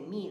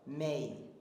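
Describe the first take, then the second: First: The vowel stays on one steady sound. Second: The vowel starts lower and glides higher. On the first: "they won't say me" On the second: "they'll have a diphthong where they start lower and they come up higher"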